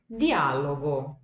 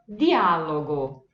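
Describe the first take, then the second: Both takes have the same delivery.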